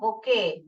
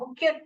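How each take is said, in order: First: The word ends with a 'kay' sound. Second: The word ends with a 'kyoot' sound. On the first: The speaker calls it right. "ऐसे पढ़ने का बुके" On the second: The speaker calls it wrong. "क्यू एट ऐसे नहीं पढ़ने का"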